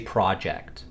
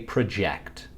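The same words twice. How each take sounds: First: It is pronounced the way the noun is said. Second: It is pronounced the way the verb is said. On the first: It names a plan or set of tasks. "When used as a noun, we say project" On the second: It names an action. "When used as a verb, we say project"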